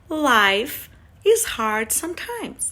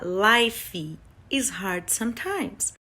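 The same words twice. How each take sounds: First: 'Life' ends cleanly on the F sound. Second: An extra vowel sound follows the F in 'life'. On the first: The speaker calls it right. "Então você para no F" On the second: The speaker calls it wrong. "Você não vai falar"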